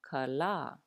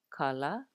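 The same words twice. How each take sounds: No difference in how they are said.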